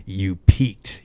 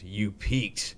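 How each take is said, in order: First: A louder, smug Bruce Wayne imitation. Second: Said in the usual way. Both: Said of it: "Bruce Wayne voice".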